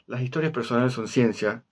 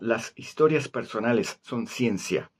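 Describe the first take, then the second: First: Some s sounds are weakened or dropped. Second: Every s sound is pronounced clearly. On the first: "que es como hablo normalmente" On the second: "si hacer que las eses suenan todas clarísimas"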